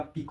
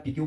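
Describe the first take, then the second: First: पिक as one syllable, ending on k; corrected pronunciation. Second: पीक्यू, अंत में "क्यू" की आवाज़ के साथ; गलत उच्चारण. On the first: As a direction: say पिक with no "cue" at the end. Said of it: "इसका pronunciation क्या होगा?". (पिक का सही उच्चारण, एक ही हिस्से में, "क" पर खत्म) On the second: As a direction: say पीक्यू in two syllables, ending like "cue". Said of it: "इसका प्रोनाउंसिएशन बहुत इंपॉर्टेंट है". (पीक्यू का आम गलत उच्चारण, दो हिस्सों में) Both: Shown as a demonstration.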